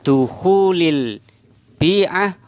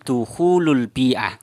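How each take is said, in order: First: The first word ends with an i vowel. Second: The first word ends with a u vowel. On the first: The speaker calls it wrong. "beliau membaca ya dukhulil bi'ah" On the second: The speaker calls it right. "yang benar itu adalah bukan dukhuli tapi dukhulul bi'ah"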